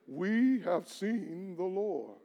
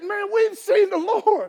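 First: It is said flatly, without excitement. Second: It is said with lively excitement.

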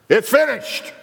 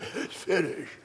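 First: It is shouted loudly and strongly. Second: It is said weakly, like a dying man.

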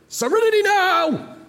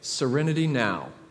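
First: It is yelled loudly. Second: It is said calmly and quietly.

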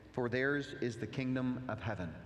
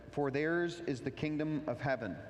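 Both takes have the same delivery.

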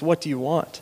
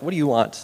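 First: It sounds kind and willing to serve. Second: It sounds annoyed and impatient.

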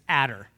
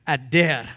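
First: It is said with a Texan accent. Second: It is said with a Hebrew pronunciation.

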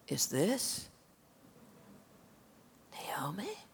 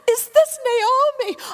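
First: It is asked with shocked, pitying dismay. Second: It is asked with delighted, welcoming surprise.

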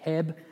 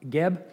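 First: The name begins with a voiceless K sound. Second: The name begins with an audible G sound. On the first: "it's pronounced like, I think, Keb" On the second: "you can hear kind of the G come out there"

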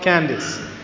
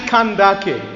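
First: It sounds like the familiar English first name. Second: It sounds unlike the familiar English first name. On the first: The speaker calls it wrong. "it's not Candace" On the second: The speaker calls it right. "It's actually Candace"

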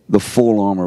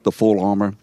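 First: The word full carries the stress. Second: The word armor carries the stress. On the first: The focus is on its completeness. The speaker calls it right. "we better make sure we're emphasizing the adjective before the noun" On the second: The focus is on the thing itself. The speaker calls it wrong. "We emphasize the word armor"

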